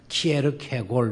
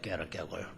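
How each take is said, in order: First: The name begins with 'kee' and has five syllables. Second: The name begins with 'keh' and has four syllables. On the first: This is the traditional Korean rendering of the name. "우리는 이렇게 번역을 했습니다만은" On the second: This is how people in Denmark say the name. "그 사람들의 발음은 깨르깨골이에요"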